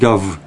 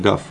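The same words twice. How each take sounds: First: The word ends with a voiced V sound. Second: The word ends with a voiceless F sound.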